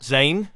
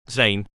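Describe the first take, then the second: First: Put-on practiced Jamaican accent, pitched up from the first try; rehearsed Jamaican lilt. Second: Said in the usual way. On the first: A narrator's reading. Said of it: "with the Jamaican accent he'd been practicing". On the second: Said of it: "but this time with the Jamaican accent".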